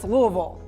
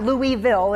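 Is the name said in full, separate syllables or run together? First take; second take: run together; full syllables. First: The name is run together into fewer syllables. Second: The name is said with each syllable separate. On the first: The speaker calls it right. "Just put it all together" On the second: The speaker calls it wrong. "It's not Louisville"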